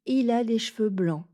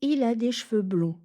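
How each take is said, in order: First: "blancs" with an open "an" nasal. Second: "blonds" with a round "on" nasal. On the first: Teacher showing the wrong option to learners. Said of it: "Je n'ai pas dit". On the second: Teacher giving learners the answer, clearly. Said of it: "La réponse". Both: Shown as a demonstration.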